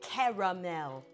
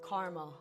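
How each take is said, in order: First: The word is said with three syllables. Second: The word is said with two syllables. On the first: "that's too many syllables" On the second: "It rolls off the tongue better"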